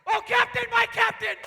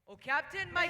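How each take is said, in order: First: It is said loudly, with much energy. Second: It is said quietly, with little energy.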